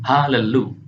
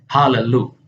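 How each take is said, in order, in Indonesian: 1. Sebuah vokal pendek memisahkan kedua bunyi l. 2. Sebuah vokal pendek memisahkan kedua bunyi l.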